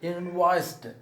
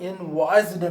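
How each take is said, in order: First: The word ends with a t sound. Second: The word ends with a d sound. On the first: The speaker calls it right. "Actual pronunciation వచ్చి ఇన్వాయిస్డ్" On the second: The speaker calls it wrong. "ఇన్వాయిస్డ్ అని పలుకుతాం, డి అని పలుకుతాం"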